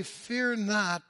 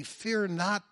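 First: "Fear" punched high and loud; stress on Fear. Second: Said in the usual way. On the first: Shown as a demonstration. Preacher correcting the congregation, stress on "Fear". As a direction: hit the word "Fear" as good news. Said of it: "They say". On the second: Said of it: "But they don't say".

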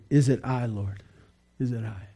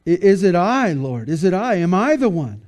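First: Hushed, low, sorrowful question. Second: Raised, insistent mock questioning; questioning disciples. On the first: Retold or imitated. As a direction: ask it softly, sinking into sorrow. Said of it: "they were sorrowful and began to say". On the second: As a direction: imitate disciples anxiously asking, one question after another. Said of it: "and they went kinda".

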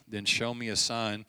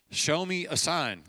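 First: Said in the usual way. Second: "Show me a sign" slower, with a falling stress on "me"; stressed repeat. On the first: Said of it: "Show me a sign," Gideon said". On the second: Shown as a demonstration. Preacher repeating Gideon's demand, slowed and stressed on "me". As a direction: lean on "me" and slow down, "Show me a sign". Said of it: "Gideon said".

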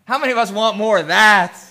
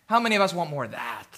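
First: Louder, rousing challenge to the room; emphatic question. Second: Low, soft and quick rhetorical question; quiet question. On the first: Pastor presses the congregation for an answer, loud and emphatic. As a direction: punch it out to the congregation. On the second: Pastor first asks who wants more of that, quietly. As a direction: ask the congregation softly, almost in passing. First asking, repeated louder right after. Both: Real, not acted.

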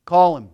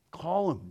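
First: Firm call. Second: Quiet, gentle summons; Jesus calls him gently, quietly; soft call. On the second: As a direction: say it softly, almost tender. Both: Retold or imitated. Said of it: "Jesus said".

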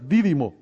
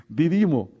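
First: "Didimo" stressed on the first syllable, DI-di-mo; corrected stress. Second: "Didimo" stressed on the middle syllable, di-DI-mo; misplaced stress. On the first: Preacher correcting an apostle's name, "Didimo" with first-syllable stress. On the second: Preacher stumbling over an apostle's name, "Didimo" with middle-syllable stress. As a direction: say "Didimo" as di-DI-mo, accent on the second I. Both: Shown as a demonstration. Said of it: "sí tiene acento en la I".

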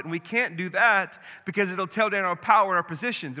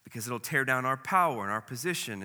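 First: Louder, higher repeat of the fear; cornered leaders, agitated and loud. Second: Said in the usual way. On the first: Acted. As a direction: press the point with rising alarm. Same words, louder take.

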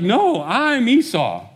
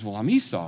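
First: Much higher, louder and slow; insisting, stretching every word; a son protesting his father's doubt, slow and raised; insistent protest. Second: Said in the usual way. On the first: Retold or imitated. Esau insists on who he is.

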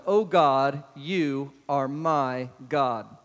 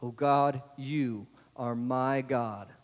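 First: "O God" called out louder, then "you are my God" drawn out very slowly; a loud slow cry of "O God, you are my God"; slow emphatic reading. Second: "O God, you are my God" drawn out very slowly and gently, resting on "my"; a gentler slow "you are my God" with the weight on "my"; slow personal reading. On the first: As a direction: proclaim it slowly and boldly, leaning on "O God". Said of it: "Look at verse one". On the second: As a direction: say it slowly as a personal claim, stressing "my". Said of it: "Do you know him as your God". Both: Shown as a demonstration.

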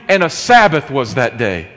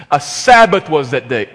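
First: Sabbath pushed to the front and hit hard; stress on Sabbath. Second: Louder, with "Sabbath" punched; stress on Sabbath. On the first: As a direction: lean on "Sabbath" at the start of the line. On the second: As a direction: hit "Sabbath" hard, the day is the shock. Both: Shown as a demonstration. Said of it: "with Sabbath front-loaded for emphasis".

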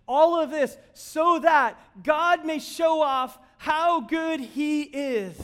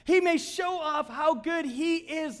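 First: Much higher, louder and slow, stretching "All of this so that God may show off how good he is"; slow, soaring pulpit emphasis on "All"; emphatic preaching. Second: "He" punched much higher and louder, slow drawn-out delivery; slow, soaring repeat leaning on "He"; stress on He. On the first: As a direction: preach it big, leaning hard on "All". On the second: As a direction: hammer "He" as the point lands. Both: Real, not acted. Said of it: "Do you get it?".

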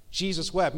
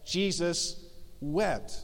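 First: Said in the usual way. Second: "Jesus" and "wept" split by a pause, both soft and falling; paused for weight. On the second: Shown as a demonstration. Pastor quoting the shortest verse to the congregation, soft and paused. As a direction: hold a beat between "Jesus" and "wept", then drop softly. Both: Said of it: "the shortest verse in the entire Bible says".

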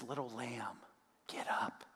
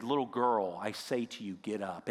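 First: Soft and much quieter, almost unvoiced; Jesus whispering the girl back to life; tender whisper. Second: Said in the usual way. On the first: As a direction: coax her gently awake. Jesus raises the dead girl.

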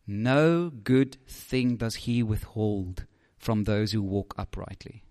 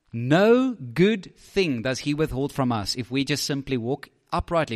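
First: Slow, soft, reverent reading of the verse; scripture reading. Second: Said in the usual way. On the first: Shown as a demonstration. Preacher reading the psalm aloud to the congregation, slow and soft. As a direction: let each word of the promise land slowly. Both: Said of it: "Listen to this".

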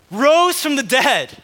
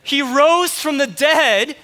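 First: "rose" stretched slow, louder, falling; proclaimed. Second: "rose" stretched slow, louder, rising tune; proclaimed again. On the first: Preacher proclaiming resurrection. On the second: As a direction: lift "rose" up and hold it, louder. Preacher repeating the proclamation. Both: Real, not acted.

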